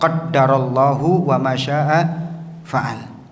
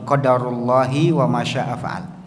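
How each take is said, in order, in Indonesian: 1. D dibaca rangkap dan Allah diakhiri dengan -u. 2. D dibaca tunggal dan Allah diakhiri dengan -i. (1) "dengan ditasydid ya dalnya, kemudian di dhammah lafzul jalalah" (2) "tanpa ditasydid dalnya, dengan di kasroh lafzul jalalahnya"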